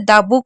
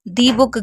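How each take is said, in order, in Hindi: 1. शब्द 'the' को छोटे 'uh' के साथ बोला जाता है। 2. शब्द 'the' को लंबे 'ee' के साथ बोला जाता है। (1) "द बुक होगा" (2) "दी बुक गलत हो जाएगा"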